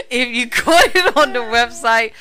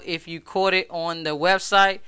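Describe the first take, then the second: First: Higher, louder, laughing through the words; real laughter stretching out the line. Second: Said in the usual way. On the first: Real, not acted. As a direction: repeat it while cracking up. Repeats sign-off line while laughing.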